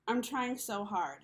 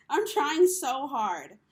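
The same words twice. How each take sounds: First: Said in the usual way. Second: "I'm trying so hard" pushed out loud and slow; a real, slowed, emphatic plea. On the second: Real, not acted. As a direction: plead it, each word weighted. Repeats the plea, pleading.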